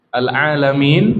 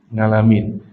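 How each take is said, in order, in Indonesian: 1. Kata ini diucapkan dengan bunyi tenggorokan 'ain'. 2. Kata ini diucapkan dengan bunyi 'ng'.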